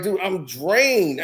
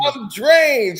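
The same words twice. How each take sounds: First: Worn-out drawl. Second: Mock exhausted outburst. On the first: Retold or imitated. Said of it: "He's like".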